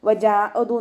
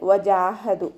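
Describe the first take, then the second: First: The middle consonant is a glottal stop. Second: The middle consonant is a clear h sound. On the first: The speaker calls it wrong. "വജാഅദു എന്നൊക്കെ ഓതുന്നത് നമുക്ക് കേൾക്കാറുണ്ട്" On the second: The speaker calls it right. "ഹ എന്നുള്ള അക്ഷരത്തിൻ്റെ സൗണ്ടിനെ ക്ലിയർ ആക്കുക"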